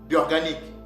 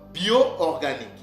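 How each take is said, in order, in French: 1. Les deux voyelles O se fondent en une seule. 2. Les deux voyelles O sont prononcées séparément. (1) "On ne lit pas ces mots bio-organique. Non" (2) "les deux O doivent être séparés. Donc"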